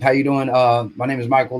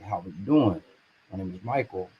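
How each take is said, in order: First: It is said quickly and nervously. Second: It is said slowly and calmly.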